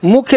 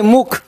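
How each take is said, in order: First: मुख्य with a y-glide after the kh; mistaken form. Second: मुख ending on the kh, no y-glide; corrected form. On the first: Teacher rejecting a misreading, मुख्य with its final "ya". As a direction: say मुख्य ending in "-khya". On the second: Teacher correcting a misreading, मुख without final "ya". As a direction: say मुख as one syllable closed by "kh". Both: Shown as a demonstration. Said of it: "मुख्य नहीं, मुख".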